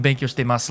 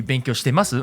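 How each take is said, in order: First: Said in the usual way. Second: "Benkyou shitemasu?" asked as a question; question intonation. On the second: Shown as a demonstration. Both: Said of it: "The question would be".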